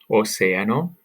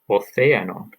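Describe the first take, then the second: First: The c sounds like an s. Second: The c sounds distinct from an s. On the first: "first as you would hear it in Latin America" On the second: "and then again as you would hear it in Spain"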